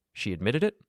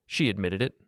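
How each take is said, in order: First: "She admitted it" as a question, rising sharply on "it"; questioning rise. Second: Said in the usual way. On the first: A narrator's reading. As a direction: ask "She admitted it?" with the pitch lifting at the end. Friend asks for confirmation.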